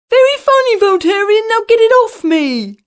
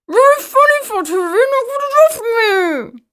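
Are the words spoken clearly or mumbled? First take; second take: clearly; mumbled. First: The words are spoken clearly. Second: The words are squashed and mumbled.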